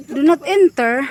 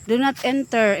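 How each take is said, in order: First: Higher, louder questioning "Do not enter"; baffled, raised-pitch echo; puzzled repeat. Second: Said in the usual way. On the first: Real, not acted. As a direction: question the sign in disbelief.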